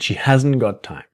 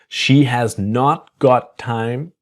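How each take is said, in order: First: Not is contracted quickly, with the t disappearing. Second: The word not is said in full. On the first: "So it's the quick, fast pronunciation"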